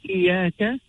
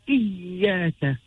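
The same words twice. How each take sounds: First: The y sound is short and not doubled. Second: The y sound is held and pressed too hard. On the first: "we do not say iyaka" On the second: "nor do we overemphasize by saying iyaka"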